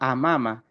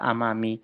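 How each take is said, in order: First: The word ends with an a vowel. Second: The word ends with an i vowel. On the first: The speaker calls it right. "selamanya dia dibaca amama" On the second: The speaker calls it wrong. "tidak bisa amami"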